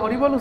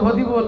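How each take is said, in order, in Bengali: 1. শব্দটি স্পষ্ট r ধ্বনি দিয়ে বলা হয়। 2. r-এর জায়গায় d-এর মতো ধ্বনি হয়। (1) "দাঁত পড়ে গেলে হরিবোল উচ্চারণ হয়?" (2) "হদিবোল হদিবোল উচ্চারণ হয়।"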